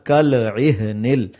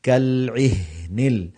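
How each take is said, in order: First: The consonant has an audible bounce before ihnil. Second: The consonant is soft with no bounce. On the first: The speaker calls it wrong. "ये बहुत गलत है और नब्बे परसेंट लोग इस तरह पढ़ते हैं" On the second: The speaker calls it right. "हा की आवाज भी सही आए और कलकला भी ना हो"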